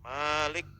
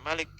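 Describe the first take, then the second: First: The first vowel is held long. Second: The first vowel is kept short. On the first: The speaker calls it right. "dengan mad Malik" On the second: The speaker calls it wrong. "tidak boleh dibaca Malik"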